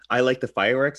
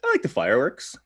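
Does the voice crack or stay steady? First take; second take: steady; cracks. First: The voice stays steady throughout. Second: The voice cracks, imitating the friend.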